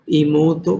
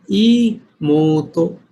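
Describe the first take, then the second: First: Said in the usual way. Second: ईमोतो with the long o stretched out very slowly; teacher stretching the long vowel. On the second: Shown as a demonstration. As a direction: drag out the long sound in ईमोतो. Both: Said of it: "long sound है।".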